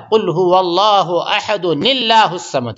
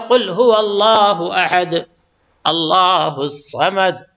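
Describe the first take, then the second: First: Ahad runs straight into Allahus samad. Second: There is a stop after ahad.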